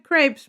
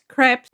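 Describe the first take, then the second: First: The word has an English pronunciation. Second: The word has a French pronunciation. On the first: "my sister would always correct me" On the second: "that's the way they pronounce them"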